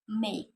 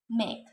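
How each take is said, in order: First: The vowel is an A diphthong. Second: The vowel is a plain E sound. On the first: The speaker calls it right. "This word should be pronounced make" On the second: The speaker calls it wrong. "it is pronounced make by the learners"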